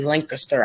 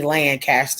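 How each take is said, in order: First: The first syllable sounds like 'link'. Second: The first syllable sounds like 'lan'. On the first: This is how the locals say it. The speaker calls it right. "we say Lancaster ... I don't see a L I N K anywhere in there" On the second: This is how someone from up north says it. The speaker calls it wrong. "you must be from up north because we don't say Lancaster"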